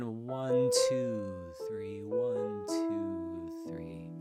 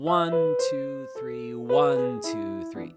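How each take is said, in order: First: The stress falls on two. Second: The stress falls on one.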